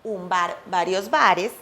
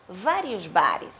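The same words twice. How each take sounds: First: "vários bares" said the Spanish way, "b" start and a clipped "bare"; pronúncia espanhola; Spanish pronunciation. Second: "vários bares" slow, "v" start and a final "ri"; pronúncia brasileira; Portuguese pronunciation. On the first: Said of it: "Em espanhol também dizemos". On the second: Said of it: "e assim vão fazer em português". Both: Shown as a demonstration.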